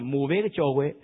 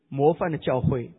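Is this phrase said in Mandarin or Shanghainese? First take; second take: Shanghainese; Mandarin. First: It is said in Shanghainese pronunciation. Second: It is said in standard Mandarin pronunciation. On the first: "上海话里面呢" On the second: "我本来讲的题目是模范的教会"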